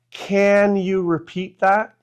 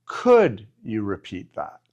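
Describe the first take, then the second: First: Said in the usual way. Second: Polite request. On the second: Shown as a demonstration. Teacher to learners, showing the polite request with a lower pitch. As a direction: ask Could you repeat that gently, with a lower pitch. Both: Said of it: "could sometimes sounds a little bit better".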